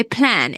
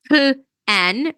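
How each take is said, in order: First: Said in the usual way. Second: "plan" broken in two, a lone "puh", a gap, then "an"; split into two sounds. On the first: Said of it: "we say plan. It's one syllable". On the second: Shown as a demonstration. Teacher showing what we don't say, plan split in two. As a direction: say "plan" wrongly as two separate syllables. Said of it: "We don't say plan".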